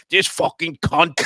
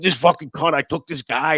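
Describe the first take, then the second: First: Slow, loud angry cursing; disgusted grumble at a neighbour; muttered curse. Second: Louder grumbling curse, a bit higher; mock angry mutter; repeated curse. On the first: Retold or imitated. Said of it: "on the other side of my ear going". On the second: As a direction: grumble it again, annoyed.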